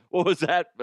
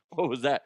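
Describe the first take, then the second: First: Sharper, louder what was that; mock indignant repeat. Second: Said in the usual way. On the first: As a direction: demand it again more loudly. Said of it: "louder repeat". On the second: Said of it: "repeats question as mock".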